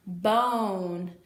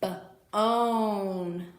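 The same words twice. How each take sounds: First: Said in the usual way. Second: "b-own" split into b and a long stretched oh; sounded out long O. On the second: Shown as a demonstration. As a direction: stretch the oh in "b-own" after a separate b. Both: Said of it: "you are going to hear the long O sound".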